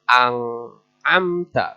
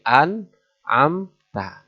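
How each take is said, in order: First: The n sounds like a nasal ng. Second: The n is pronounced clearly and distinctly. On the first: The speaker calls it wrong. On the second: The speaker calls it right. "harus jelas"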